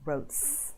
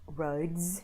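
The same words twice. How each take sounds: First: The word ends in a hissing s sound. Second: The word ends in a buzzing z sound. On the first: The speaker calls it wrong. "instead of" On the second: The speaker calls it right. "usually are pronounced as Z"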